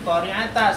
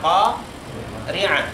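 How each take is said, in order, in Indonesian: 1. Berakhir dengan vokal a terbuka. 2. Berakhir dengan bunyi h. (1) "bukan berarti nanti qori'ata seperti yang di atas, enggak" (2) "berubah menjadi H, berarti dibaca qori'ah"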